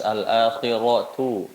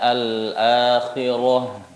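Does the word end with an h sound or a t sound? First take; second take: t sound; h sound. First: The word ends with a t sound and vowel. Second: The word ends with a breathy h sound. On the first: The reader continues without stopping. "kalau dia kondisinya tidak wakof atau tidak sukun, maka dibacanya sebagaimana huruf tak taknif" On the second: The reader stops on this word. "kalau dia wakof ... maka seperti ha yang keluar dari aqsal halqi"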